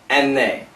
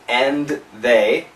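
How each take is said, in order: First: It is said very quickly. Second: It is said slowly and carefully. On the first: "Really fast" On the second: "Perfect pronunciation"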